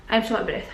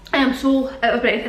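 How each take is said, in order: First: Breathless, short of air; out of breath. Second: Out of breath. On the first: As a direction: talk between breaths. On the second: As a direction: push the words out between breaths. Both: Real, not acted.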